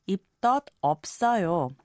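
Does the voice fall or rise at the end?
falls. The voice falls at the end.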